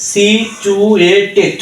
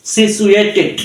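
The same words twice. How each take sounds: First: Careful four-syllable demo of সি চু এ টেট; split into syllables. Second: Said in the usual way. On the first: Shown as a demonstration. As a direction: stretch each part of সি চু এ টেট separately. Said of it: "চার সিলেবলেও করা যায়". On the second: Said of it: "তিন সিলেবলেও করা যায়".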